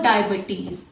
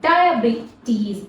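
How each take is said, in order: First: A vowel is reduced to a short schwa. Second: The vowels after B and T are long E. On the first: The speaker calls it wrong. "not diabetes, not here schwa sound" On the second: The speaker calls it right. "long E sound"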